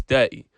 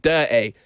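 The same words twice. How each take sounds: First: Said in the usual way. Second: DIRTY said "dur-tay", Brummie style; Brum accent. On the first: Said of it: "It's not dirty". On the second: Shown as a demonstration. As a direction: put on a little Birmingham accent for DIRTY. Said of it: "put on a little bit of the Brum".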